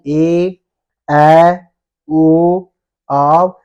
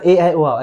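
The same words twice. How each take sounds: First: ए, ऐ, ओ, औ each held long, separately and loudly; drawn-out long vowels. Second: ए, ऐ, ओ, औ run together briefly; short, quick vowels. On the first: Teacher shows class the long vowels, ए, ऐ, ओ, औ stretched. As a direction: hold each of ए, ऐ, ओ, औ firmly, pausing between. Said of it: "ऐसे बोलेंगे". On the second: Teacher shows the class what not to do, ए, ऐ, ओ, औ short. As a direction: say ए, ऐ, ओ, औ short with no holding. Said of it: "ऐसे नहीं बोलना". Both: Shown as a demonstration.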